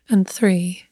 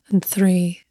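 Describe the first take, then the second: No difference in how they are said.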